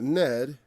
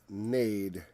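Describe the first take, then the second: First: The vowel sounds like the e in bed. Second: The vowel sounds like the a in made. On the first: The speaker calls it wrong. "That's not ned" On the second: The speaker calls it right. "a e is generally pronounced like an a"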